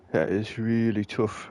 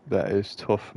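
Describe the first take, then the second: First: Slow, playful put-on British accent on "That is really tough". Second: Said in the usual way. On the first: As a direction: slip into a mock British accent, unhurried. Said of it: "I don't know why I'm going British". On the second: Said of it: "I'm going British".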